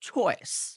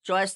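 First: The ch sound has a strong puff of air. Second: The ch sound has no puff of air. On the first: The speaker calls it right. "কি বলতে হবে?" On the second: The speaker calls it wrong. "চয়েস না বলে"

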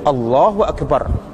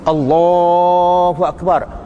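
First: The phrase is said short without stretching. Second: The phrase is drawn out with long vowels.

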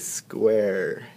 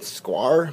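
First: The vowel sounds like 'air', as in hair. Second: The vowel sounds like 'ar', as in car. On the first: The speaker calls it right. "We say square. That kind of takes on a different sound" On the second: The speaker calls it wrong. "We kind of want to say R, right?"

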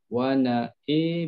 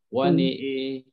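First: Only the hamzah vowel leans toward 'e'. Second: The nun and hamzah vowels lean toward 'e'. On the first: "Imam Khallad, dia cuma imalahkan huruf hamzah saja" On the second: "khalaf dia dua-dua nun dengan hamzah, dia imalah"

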